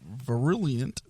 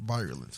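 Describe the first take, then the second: First: "virulent" as vuh-RILL-yunt; mispronounced virulent. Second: "Virulent" as VY-ruh-lunt, like virus; low, quiet "Virulent", opening with VY; corrected pronunciation. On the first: Host stumbling over an article's word, mispronounced "virulent". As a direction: say "virulent" with stress on a "RILL" middle. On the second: Host repeating co-host's correction, "Virulent" begun like virus. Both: Real, not acted. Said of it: "I always mispronounce that for some reason".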